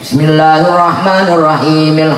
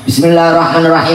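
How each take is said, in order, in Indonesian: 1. Dibacakan dengan tempo sedang dan merata. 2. Dibacakan sangat cepat dan tergesa-gesa. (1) "Sing sedeng dawa cendeke beres" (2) "Fatihah setapasan atau cendak"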